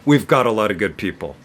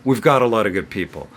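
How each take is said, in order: Both takes have the same delivery.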